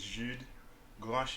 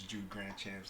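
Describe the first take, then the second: First: The name has its original, non-American pronunciation. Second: The name has an Americanized pronunciation. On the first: This is how the name is really pronounced. "the real pronunciation for that is" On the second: This is how everyone knows him. "I've Americanized it"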